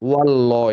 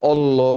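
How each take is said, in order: First: The word starts with a w sound. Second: The word starts without a w sound. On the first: The speaker calls it right. "এটা সুন্দর লাগে" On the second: The speaker calls it wrong. "তুমি অল্লাহ বলছো"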